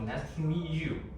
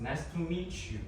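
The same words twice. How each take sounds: First: The t and y stay as separate sounds. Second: The t and y blend into a ch sound. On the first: "instead of" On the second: "we assimilate T with and uh, Y, so it pronounces ch"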